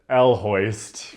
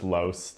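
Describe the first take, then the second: First: The name starts with a separate 'el' syllable. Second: The name starts directly without a separate syllable. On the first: The speaker calls it wrong. "I called it El Hoist for a long time" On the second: The speaker calls it right. "but it's just Loest"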